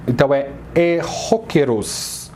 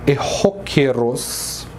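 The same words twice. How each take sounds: First: Said in the usual way. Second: "erróqueros" slowed, weight on "ró"; teacher models "erróqueros" slowly; slow stress demo. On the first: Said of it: "a sílaba mais forte". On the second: Shown as a demonstration.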